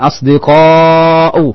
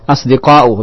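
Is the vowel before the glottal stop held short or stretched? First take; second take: stretched; short. First: The long vowel is drawn out much longer. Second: The long vowel is held only briefly. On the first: This is how it is recited in the Quran. "Tapi kalau dalam Al-Quran begini" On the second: This is how it is said in everyday Arabic. "jamaknya adalah asdiqa'u"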